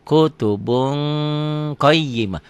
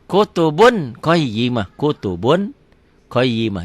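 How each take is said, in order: First: KUTUBUN ending in a long "bung"; held ikhfa. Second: KUTUBUN with a clear final n, raised voice; written form. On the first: Teacher shows how it is read, n held as ng. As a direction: hold the ng before QAYYIMAH. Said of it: "Dibacanya jadi". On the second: Teacher reads it as spelled, clear n. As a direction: end KUTUBUN on a firm N, then qayyimah. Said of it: "Dibacanya jadi kutubun". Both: Shown as a demonstration.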